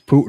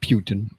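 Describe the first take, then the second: First: The first syllable sounds like 'poo'. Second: The first syllable sounds like 'pew'. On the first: The speaker calls it right. "That's Putin" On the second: The speaker calls it wrong. "not Putin. He's not made of pewter"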